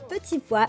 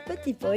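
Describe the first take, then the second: First: It is pronounced the standard French way. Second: It is pronounced the Cuban Spanish way.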